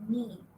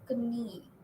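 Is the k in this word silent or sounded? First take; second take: silent; sounded. First: The k at the start is silent. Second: The k at the start is sounded. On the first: The speaker calls it right. "you say knee. K is silent" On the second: The speaker calls it wrong. "you don't say knee"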